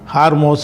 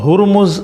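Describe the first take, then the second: First: The name is said as Haarmos. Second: The name is said as Hurmuz. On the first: The speaker calls it wrong. "ஹார்மோஸ் இப்படிலாம் சொல்கிறாங்க" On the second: The speaker calls it right. "அது சரியான உச்சரிப்பு வந்து ஹுர்முஸ்ன்னு தான்"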